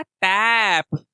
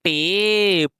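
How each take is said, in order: First: टैप drawn out slowly with a short ऐ. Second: टेप said with a long ए sound. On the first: Teacher contrasts टैप with टेप. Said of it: "तो ये क्या था?". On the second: Teacher contrasts टेप with टैप. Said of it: "ये क्या है?". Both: Shown as a demonstration.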